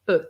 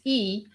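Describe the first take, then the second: First: The letter is said with its French sound. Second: The letter is said with its English sound. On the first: "but in French is E" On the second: "in English it's E"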